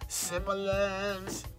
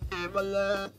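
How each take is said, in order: First: The word starts with a clear S sound. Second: The word starts without any S sound. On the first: The speaker calls it right. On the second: The speaker calls it wrong.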